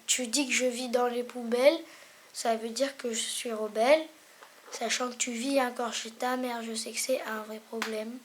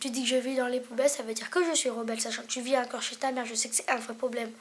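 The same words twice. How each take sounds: First: It is said more slowly. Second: It is said at normal speed.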